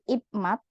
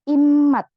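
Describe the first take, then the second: First: A p sound comes before the m. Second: An m sound comes before the m. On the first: The speaker calls it wrong. "Bukan ipmat" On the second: The speaker calls it right. "jadinya langsung miem juga"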